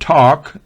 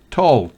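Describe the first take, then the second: First: The L sound is silent. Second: The L sound is pronounced. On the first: The speaker calls it right. "La L es muda en talk" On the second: The speaker calls it wrong. "no es talk"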